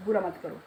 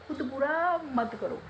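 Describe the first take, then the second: First: Said in the usual way. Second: खुद बुरा मत करो slowed right down, बुरा leaned on and falling; slow emphatic warning. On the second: Shown as a demonstration. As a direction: drag out बुरा to drive the advice home.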